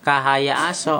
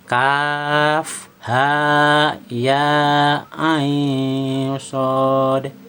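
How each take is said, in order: First: The letters are read as short joined syllables. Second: Each letter is read by its full, long name. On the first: The speaker calls it wrong. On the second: The speaker calls it right. "dibaca hurufnya"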